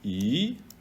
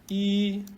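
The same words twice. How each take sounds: First: The syllable is said with the second tone. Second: The syllable is said with the first tone.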